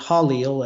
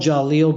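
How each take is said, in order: First: The name begins with an H sound. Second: The name begins with a J sound. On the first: "he pronounces it Halil as an H" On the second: "it's spelled Jalil"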